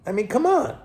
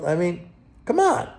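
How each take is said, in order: First: Higher, incredulous I mean, come on; exasperated. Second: Said in the usual way. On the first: Real, not acted. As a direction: throw it up in disbelief. Exasperated at rate logic.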